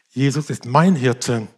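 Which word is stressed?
mein. The stress falls on the word mein. The shepherd cares for the speaker personally. "dass er mich persönlich sieht und kennt"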